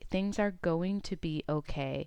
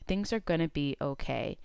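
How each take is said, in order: First: Going to is pronounced fully, each word separate. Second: Going to is run together and reduced to gonna. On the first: The speaker calls it wrong. "I don't say things are going to be okay" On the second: The speaker calls it right. "I kind of put it together as going to or gonna"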